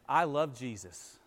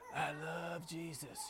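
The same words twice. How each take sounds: First: It is said in a plain, normal voice. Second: It is said in a breathy, sensual voice. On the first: The words come across sincerely and fittingly. The speaker calls it right. "I can say" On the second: The words sound suggestive rather than devotional. The speaker calls it wrong. "more of a sensual, breathy, suggestive way"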